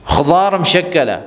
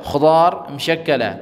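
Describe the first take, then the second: Both takes have the same delivery.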